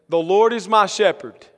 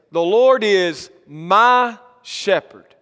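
First: Said in the usual way. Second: Slow, with "my" drawn out and emphasised; weighty, deliberate emphasis on "my"; stress on MY. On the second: Shown as a demonstration. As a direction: set "my" apart and lean on it. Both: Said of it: "is the emphasis of the first verse".

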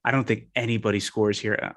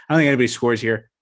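First: Put-on I don't think anybody scores here in a light British accent. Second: Said in the usual way. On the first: Podcaster closing his London pick, in a light British accent. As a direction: say it like a Londoner, half-hearted. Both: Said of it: "I'm gonna stop doing this".

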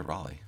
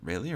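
First: Raleigh said as "RAH-lee"; first vowel of Raleigh as in "rah"; RAH-lee pronunciation. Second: Raleigh said as "RAY-lee"; first vowel of Raleigh as in "ray"; RAY-lee pronunciation. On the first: Co-host offering the other way to say the name, Raleigh as "RAH-lee". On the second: Co-host checking how to say the player's name, Raleigh as "RAY-lee". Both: Shown as a demonstration. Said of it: "Is it Raleigh or Raleigh?".

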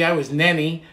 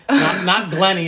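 First: "Nenny" with an N where the Gl goes; grandma's Nenny. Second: Said in the usual way. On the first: Retold or imitated. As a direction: say "Nenny", the G and l swapped for N. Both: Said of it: "Couldn't say the letter G".

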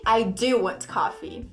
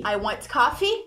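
First: Slow phrase, weight on "do"; confirming "I do", falling away; emphatic DO. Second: Said in the usual way. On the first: Shown as a demonstration. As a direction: stress "do" to confirm. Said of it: "ele confirma". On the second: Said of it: "Deu pra sentir?".

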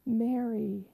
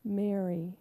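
First: Gentle, quiet, full of mercy; compassionate. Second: Soft and low, full of love; tender name. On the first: Risen Jesus speaking Mary's name with compassion, quietly. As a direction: call her name with love and mercy. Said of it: "He said it full of compassion and love and mercy". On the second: Jesus tenderly calling Mary by name, soft and low. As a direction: say her name softly, like a gift. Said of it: "he said one simple word". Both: Acted.

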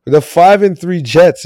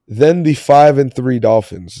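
First: "the five and three Jets" slow, higher and louder, leaning on "Jets"; stress on Jets. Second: Said in the usual way. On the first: Shown as a demonstration. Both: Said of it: "I wanted to put the emphasis on the Jets".

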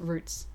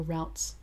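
First: "routes" with an oo vowel, sounding like roots. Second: "routes" with an ow vowel, sounding like rowts; American-style routes. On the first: Co-host describing travel options, routes pronounced like roots. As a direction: say routes to rhyme with boots. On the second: Offering the American version, routes pronounced to rhyme with shouts. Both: Shown as a demonstration. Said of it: "as some Americans might say".

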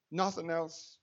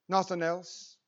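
No difference in how they are said.

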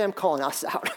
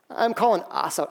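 First: Said in the usual way. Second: Laughing through calling us out; chuckling as he says calling us out. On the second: Real, not acted. Pastor repeating his point to the church with a laugh.

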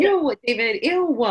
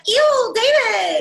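First: High, loud disgusted ew; Alexis impression. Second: High, loud, slow whiny ew David; Alexis impression. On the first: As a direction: echo the spoiled sister's whine. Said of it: "do impersonations of them". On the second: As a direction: drag out a spoiled sister's disgust. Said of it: "she's always like".

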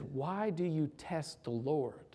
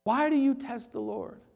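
First: Quiet question. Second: Higher, pressing rebuke; emphatic question. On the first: Moses quietly rebuking the grumbling people, softly. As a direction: ask it gently, almost under breath. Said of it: "he says". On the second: Preacher repeating Moses's rebuke to the church, emphatically. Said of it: "preacher repeats with force". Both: Acted.

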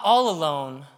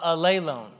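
First: Said in the usual way. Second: "alone" turned into a-LAY-lone; stress on second syllable. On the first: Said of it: "sort of sounds like all alone". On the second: Shown as a demonstration. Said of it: "second accent is where you put the accent".

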